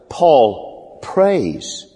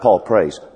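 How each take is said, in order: First: The stress falls on the word prays. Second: The stress falls on the word Paul. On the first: He truly and earnestly prays. The speaker calls it right. "I mean, he really prays" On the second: It is simply noted that the man prays. The speaker calls it wrong. "It's not Paul prays"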